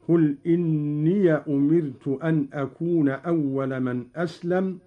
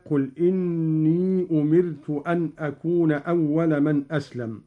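First: إني read "inniya" with the ya carrying fatha; Qalun reading. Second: إني read with short plain i, no added ya sound; Hafs reading. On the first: Teacher shows Qalun's opened ya. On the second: Teacher recites the Hafs reading before Qalun's. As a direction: recite إني as "inī" without fatha on the ya. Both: Shown as a demonstration. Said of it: "قرأ قالون بفتح ياء الإضافة".

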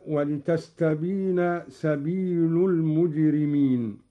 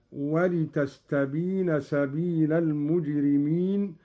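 First: سبيل ends in u, "sabīlu"; Hafs reading. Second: سبيل ends in a, "sabīla"; Qalun reading. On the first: Teacher recites the Hafs reading before Qalun's. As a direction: end سبيل with u. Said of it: "بنصب اللام". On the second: Teacher shows Qalun's accusative. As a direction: end سبيل with a. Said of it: "بنصب اللام هكذا". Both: Shown as a demonstration.

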